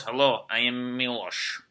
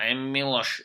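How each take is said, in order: First: Put-on slow, heavy Eastern European accent on Milos; mock Serbian accent. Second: Lightly put-on Eastern European accent; mock Serbian accent. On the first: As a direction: introduce yourself like a stern Serbian guy, slowly. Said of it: "I just like walking up to girls". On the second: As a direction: say your name like a tough Serbian. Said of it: "I don't know if it's just funny to me".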